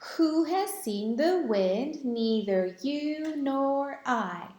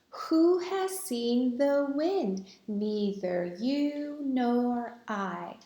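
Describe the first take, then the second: First: It is recited at a faster pace. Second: It is recited at a slower pace.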